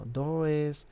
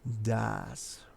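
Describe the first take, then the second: First: The vowel sounds like an 'o'. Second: The vowel sounds like an 'a'. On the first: The speaker calls it wrong. "Muchas personas pronuncian como dos, como does" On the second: The speaker calls it right. "como si tuviera una A"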